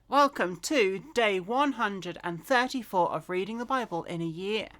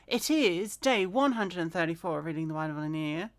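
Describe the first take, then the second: First: It is said slowly and clearly. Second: It is said fast and mumbled.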